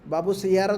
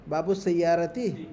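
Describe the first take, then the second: First: The second word ends in a plain 'a' sound. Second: The second word ends in an 'ati' sound. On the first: The speaker calls it wrong. "बाबू सैयारा तो नहीं बोल सकते हम" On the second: The speaker calls it right. "बाबू सैयारा तो गलत है"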